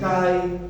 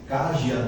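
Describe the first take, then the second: First: The final j sounds like a weak 'ee'. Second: The final j sounds like 'zh'. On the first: The speaker calls it right. "isso daqui se lê assim" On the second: The speaker calls it wrong. "vocês vão pensar que é assim"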